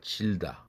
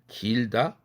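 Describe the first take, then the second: First: The word begins with a j sound. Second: The word begins with a g sound. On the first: The speaker calls it wrong. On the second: The speaker calls it right.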